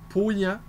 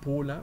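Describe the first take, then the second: First: The middle consonant sounds like a Y. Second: The middle consonant sounds like an L. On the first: The speaker calls it right. "on prononce Pauyan" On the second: The speaker calls it wrong. "et non pas Paulan"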